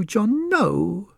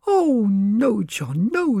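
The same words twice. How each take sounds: First: High wife's voice, rising at the end; a wife's plea lifting into a question; pleading wife. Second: High, crying-out wife's voice, falling at the end; a wife begging her husband not to sell; pleading wife. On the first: Wife pleads again with husband, high rising cry. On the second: Wife begs husband not to sell the farm, high falling plea. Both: Acted. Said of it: "cried Missus Skint".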